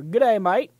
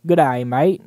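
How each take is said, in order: First: Bad Australian accent. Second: Louder, clumsy Australian "Good day, mate"; hammed-up Aussie greeting, badly faked; a poor Australian accent, pushed out louder. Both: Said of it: "I'm shit at my Australian accents".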